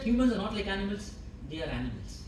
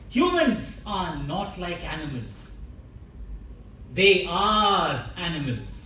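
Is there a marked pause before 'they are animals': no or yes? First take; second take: no; yes. First: It runs on without a marked pause or stress. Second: It has a marked pause and strong stress. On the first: The speaker calls it wrong. "you said" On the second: The speaker calls it right. "just samples with the pause and the stress"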